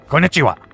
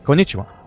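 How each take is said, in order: First: The greeting sounds harsh and forceful. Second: The greeting sounds soft and gentle. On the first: The speaker calls it wrong. "That's not how they talk" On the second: The speaker calls it right. "It's more like"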